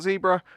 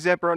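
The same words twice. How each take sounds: First: The first syllable is said the American way. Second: The first syllable is said the British way. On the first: "not zebra" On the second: "because I'm English. And I do say zebra"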